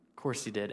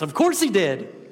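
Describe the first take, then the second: First: It is said in a flat, resigned tone. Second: It is yelled in an excited, exuberant tone. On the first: The outcome was annoyingly predictable. "In that tone" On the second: The outcome is a joyful confirmation. "Maybe you yelled that in exuberance"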